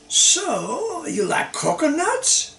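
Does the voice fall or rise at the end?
rise. The voice rises at the end. It is a question.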